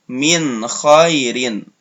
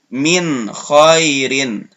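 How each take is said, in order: Both takes have the same delivery.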